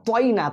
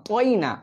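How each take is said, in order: Both takes have the same delivery.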